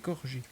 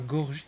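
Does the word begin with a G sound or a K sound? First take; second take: K sound; G sound. First: The word begins with a voiceless K sound. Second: The word begins with a voiced G sound. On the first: The speaker calls it right. "c'est Corgi" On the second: The speaker calls it wrong. "c'est pas Gorgie"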